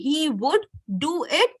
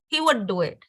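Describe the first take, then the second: First: He would is said as two full words. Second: He would is contracted into one syllable. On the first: The speaker calls it wrong. "instead of saying" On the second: The speaker calls it right. "Try to use contractions"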